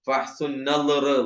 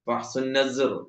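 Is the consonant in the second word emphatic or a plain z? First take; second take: emphatic; plain z. First: The second word has a heavy emphatic consonant. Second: The second word has a plain z sound. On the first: "ലായാണ് നളർ" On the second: "ഈ സെഡ് ആക്കിയിട്ട് പറയാം"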